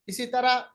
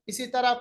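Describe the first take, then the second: Both takes have the same delivery.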